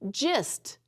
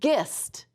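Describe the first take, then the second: First: The word begins with a J sound. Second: The word begins with a hard G sound. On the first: The speaker calls it right. "G I says the J sound" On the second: The speaker calls it wrong. "We wouldn't say gist"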